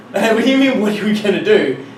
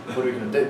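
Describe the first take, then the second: First: Loud, higher-pitched disbelief; incredulous retort. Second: Low, soft, defeated question; helpless resignation. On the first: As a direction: throw the question back, exasperated. Retold incredulous retort to instructor. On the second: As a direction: ask it quietly, out of ideas. Instructor gives up, retold. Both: Retold or imitated.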